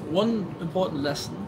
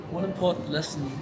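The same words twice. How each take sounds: The two takes are said the same way.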